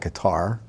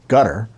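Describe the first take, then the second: First: The name does not sound like 'gutter'. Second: The name sounds like the word 'gutter'. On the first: This is the speaker's own habitual pronunciation. "I call it Qatar" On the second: This is the pronunciation others recommend. "I'm told to pronounce it Gutter"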